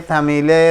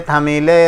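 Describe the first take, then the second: The two takes are said the same way.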